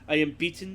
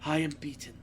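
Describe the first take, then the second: First: It is read in a hyped-up, dramatic way. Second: It is read in a sappy, mournful way.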